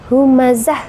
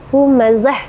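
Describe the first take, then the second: First: The word ends in a stopped h sound. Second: The word ends in a stopped h sound.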